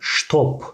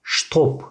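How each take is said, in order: First: The word begins with an sh sound. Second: The same.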